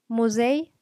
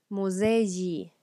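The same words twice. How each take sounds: First: "Musei" ending in a clipped short i glide, stressed on "sei"; short final i. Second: "Muzeyi" with a drawn-out y plus i ending; long final yi. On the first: Teacher modelling for students: "Musei" with a short final i. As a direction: say "Musei" with a quick short i at the very end. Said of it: "una i cortita al final". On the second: Teacher modelling for students: "Muzeyi" with a long yi ending. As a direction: stretch the end of "Muzeyi" into a long yi. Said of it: "una i larga". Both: Shown as a demonstration.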